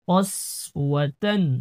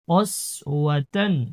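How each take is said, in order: No difference in how they are said.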